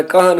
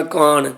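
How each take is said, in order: First: ਕਹਾਣ with a half h sounded after the k; correct pronunciation. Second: ਕਾਣ as one clipped syllable with no h; wrong pronunciation. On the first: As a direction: say ਕਹਾਣ, letting the h breathe after the k. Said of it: "ਕਹਾਣ ਕੱਕੇ ਥੱਲੇ ਅੱਧੇ ਹਾਹੇ ਦਾ ਉਚਾਰਨ ਕਰਨਾ". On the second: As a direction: show the mistaken ਕਾਣ, dropping the h sound. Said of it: "ਕਾਣ ਨਹੀਂ". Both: Shown as a demonstration.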